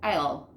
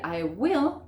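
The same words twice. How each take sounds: First: "I'll" as one syllable; "I'll", the WILL shrunk to an L; contracted form. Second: I WILL as two separate words; "I will" with WILL fully sounded; full form. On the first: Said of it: "cómo vamos a decir". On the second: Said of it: "en vez de decir". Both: Shown as a demonstration.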